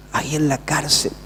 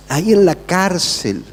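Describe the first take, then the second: First: Dropped to a soft repeat; quiet echo. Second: Said in the usual way. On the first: Shown as a demonstration. Preacher echoing his own line to the congregation, quietly. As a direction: let the words ahí en la cárcel fall away softly.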